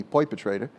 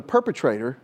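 First: Perpetrator said as "poipetrator", the first vowel an oi glide; city pronunciation. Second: Said in the usual way. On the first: Retold or imitated. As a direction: local city way of saying perpetrator, "poi-petrator". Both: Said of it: "or as they say here in the city".

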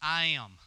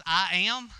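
First: "I am" as a complete, settled statement; God's declaration. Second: "I am" thrown back louder as a baffled question; incredulous questioning. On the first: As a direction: state "I am" firmly, with falling finality. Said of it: "And God says". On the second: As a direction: query "I am" in disbelief, louder. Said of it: "that's your response?". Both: Acted.

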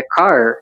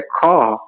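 First: Car with a strong rolled-back American R at the end. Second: Car with a silent R, the vowel held open; British car, no r. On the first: Teacher shows car in American English with the R pulled. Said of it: "Então, puxa o R". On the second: Teacher shows car in British English without the R. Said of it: "Então, não pronuncia o R". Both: Shown as a demonstration.

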